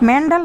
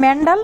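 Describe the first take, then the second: First: The middle consonant is a 'd' sound. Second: The middle consonant is a 'd' sound.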